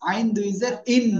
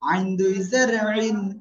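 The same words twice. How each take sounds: First: The vowel is said plainly without throat constriction. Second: The vowel is said with the throat squeezed. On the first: The speaker calls it wrong. "এটা কিন্তু আইন দুই জের ইন না" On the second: The speaker calls it right. "গলা চেপে উচ্চারণ করতে হবে"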